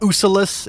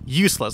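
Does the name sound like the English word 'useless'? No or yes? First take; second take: No; Yes. First: The name does not sound like 'useless'. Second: The name sounds exactly like 'useless'. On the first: The speaker calls it wrong. "It's not Ussylis" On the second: The speaker calls it right. "It's pronounced useless"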